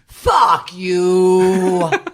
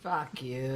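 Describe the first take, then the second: First: It is said with growl and passion. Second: It is said plainly, without much force.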